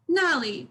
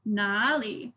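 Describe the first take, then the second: First: NALI with a sharp falling "na"; "nali" with first syllable going down; falling fourth tone. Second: NALI with a low, dipping "na"; "nali" with a slow, low first syllable; deep third tone. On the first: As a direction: start "nali" high and drop it. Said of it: "sharp and down". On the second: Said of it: "it's deep". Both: Shown as a demonstration.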